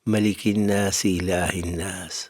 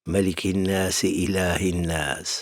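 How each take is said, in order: Both takes have the same delivery.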